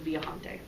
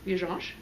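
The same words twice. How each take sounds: First: The j has no sh-like sound. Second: The j has a sh-like sound. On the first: This is the Spanish pronunciation. "In Spanish" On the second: This is the Portuguese pronunciation. "There's a J and then a sh sound in the Portuguese"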